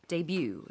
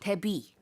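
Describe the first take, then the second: First: It is said with English pronunciation. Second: It is said with Korean pronunciation. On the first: "영어식으로 할 때는 debut 이렇게 발음을 하고요" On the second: "how it's pronounced in Korea"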